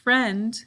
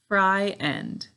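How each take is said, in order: First: The word is said as one syllable. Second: The word is split into two syllables. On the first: It is said this way in normal speech. "when we say it, usually we only have one syllable" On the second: It is said this way to help with spelling. "To spell it correctly, though, we have to say fry end"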